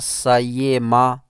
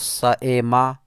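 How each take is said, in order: First: The middle sound is a full y glide. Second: The middle sound is a full glottal stop. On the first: "ना सयेमा बिल्कुल या करके" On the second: "ना तो सएमा बिल्कुल हमज़ा करके"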